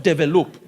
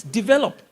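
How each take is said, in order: First: "develop" said as deh-veh-LOOP; mispronunciation. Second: "develop" as dih-VEL-up, raised on VEL; correct pronunciation. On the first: Coach showing what not to say, "develop" as deh-veh-LOOP. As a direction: end "develop" on a long "loop". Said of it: "not develop". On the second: Coach correcting the tribe's habit, "develop" as dih-VEL-up. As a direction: stress the middle of "develop", short ending. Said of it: "It's develop, not develop". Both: Shown as a demonstration.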